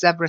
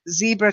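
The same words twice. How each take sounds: First: It is said with a British pronunciation. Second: It is said with an American pronunciation. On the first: "tends to be British English" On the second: "tends to be American English"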